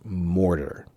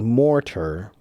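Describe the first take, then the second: First: The middle consonant is a soft D, said quickly. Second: The middle consonant is a hard T, said slowly. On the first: "the hard T becomes a soft D, so it becomes mortar" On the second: "If it's pronounced slowly with proper diction, it should be mortar"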